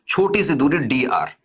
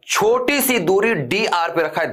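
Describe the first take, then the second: First: Said in the usual way. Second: छोटी सी दूरी D R said slowly, each word weighted; slow, spelled-out emphasis. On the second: Shown as a demonstration. Teacher repeating the key point slowly for students, slow stress. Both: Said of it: "ध्यान से सुनना मेरी बात".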